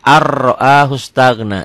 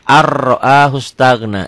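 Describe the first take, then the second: First: The n merges into a doubled r sound. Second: The n merges into a doubled r sound.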